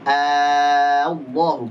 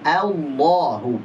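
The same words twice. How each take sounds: First: Allahu drawn out very slowly with a heavy dark A; wrong thick Allahu. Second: Allahu drawn out very slowly with a thin open A; slow clear Allahu. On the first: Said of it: "Bukan Allahu". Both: Shown as a demonstration.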